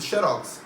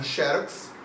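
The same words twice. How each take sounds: First: Xerox said as "xe-ROX"; stress on last syllable. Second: Xerox said as "XÉ-rox"; stress on first syllable. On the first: Teacher gives the other accepted form, xerox stressed on ROX. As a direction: put the weight on ROX in xerox. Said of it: "As duas formas são aceitas". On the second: Teacher gives one accepted form, xerox stressed on XÉ. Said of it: "Algumas palavras têm duas". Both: Shown as a demonstration.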